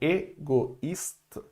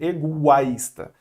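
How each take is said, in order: First: The o and i are pronounced as separate vowels. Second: The o and i merge into one 'wa' sound. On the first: "o I vai ser pronunciado, ele não vai juntar" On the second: "Se não tivesse o trema, o O com I, ele fica o A"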